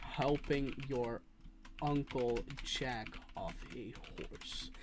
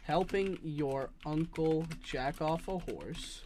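First: Slow, with a pause after "your"; dictating slowly, with pause. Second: Slow, careful dictation; dictating slowly. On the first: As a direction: break it into two slow chunks. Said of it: "two entirely different meanings". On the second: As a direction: spell it out slowly. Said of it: "I'll type it out for you". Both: Shown as a demonstration.

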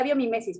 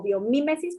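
First: Biomimesis stressed late, bio-mi-MÉ-sis. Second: Biomimesis stressed on the MI, bio-MÍ-mesis. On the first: Retold or imitated. Guest recalls how she always said the term, stress on ME in biomimesis. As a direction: put the weight on the ME of "biomimesis". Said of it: "pero yo siempre decía". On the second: Shown as a demonstration. Guest gives the official translation of the term, stress on MI in biomimesis. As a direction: lean on the I of "biomimesis". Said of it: "con acento en la I".

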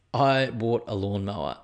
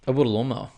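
First: Slow, every word "I bought a lawnmower" weighted; slow dramatic restatement. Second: Said in the usual way. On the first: Shown as a demonstration. Proudly announcing the new lawnmower to listeners, slow. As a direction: lean into "I bought a lawnmower" slowly, like big news.

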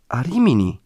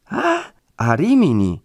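First: Said in the usual way. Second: High, drawn-out echoed question; dismayed surprise. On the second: A narrator's reading. Woman learning the friar has gone far away, dismayed surprise. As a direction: stretch the "Ah", then question "Rimini" in disbelief.

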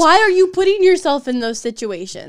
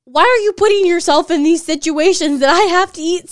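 First: Exasperated question. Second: Loud, higher, exasperated; loudly exasperated retold reply; exasperated outburst. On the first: Real, not acted. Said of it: "repeats her question now". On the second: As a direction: protest it in disbelief. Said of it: "I'm just like".

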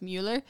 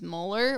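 First: Mueller with a German "myoo" first vowel; German pronunciation. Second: Said in the usual way. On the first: Shown as a demonstration. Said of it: "I guess in German it's". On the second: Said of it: "like, pronounced Mueller".

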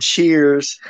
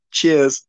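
First: Said in the usual way. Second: British "Cheers" with the r dropped; mock British accent, r-less; exaggerated British accent. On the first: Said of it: "I love how he says". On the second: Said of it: "It's so exaggerated".

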